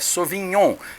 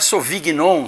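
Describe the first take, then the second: First: The g and n blend into one sound. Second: The g and n are sounded separately. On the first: The speaker calls it right. "é Sauvignon" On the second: The speaker calls it wrong. "não é Sauvignon também, que tem o G N"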